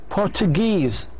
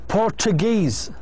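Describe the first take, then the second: The two takes are said the same way.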